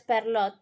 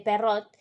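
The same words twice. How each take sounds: First: Perrault said as "per-LO", with an L; mispronounced name. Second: Perrault said as "pe-RRO", without an L; corrected name. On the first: Co-host slips on the storyteller's name, Perrault as "per-LO". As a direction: say Perrault with an L in place of the R sound. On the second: Co-host corrects the storyteller's name, Perrault as "pe-RRO". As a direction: say Perrault with a Spanish double R and no L. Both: Real, not acted.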